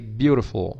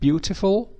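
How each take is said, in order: First: The middle consonant is a quick r-like flap. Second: The middle consonant is a clear t sound. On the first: "And you can also say" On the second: "with the T sound"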